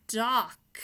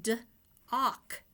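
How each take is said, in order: First: Said in the usual way. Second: "D-ock" with a break after the D; split word. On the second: Shown as a demonstration. Teacher splitting the word for kids. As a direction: pull "D" apart from "ock". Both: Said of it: "with a D in front of it".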